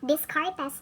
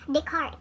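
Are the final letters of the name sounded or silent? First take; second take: sounded; silent. First: The name is read with its final letters sounded. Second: The name is said with its final letters silent. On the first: The speaker calls it wrong. "some people would uh, pronounce it as Descartes" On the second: The speaker calls it right. "the proper pronunciation of this uh, family name ni Rene is Descartes"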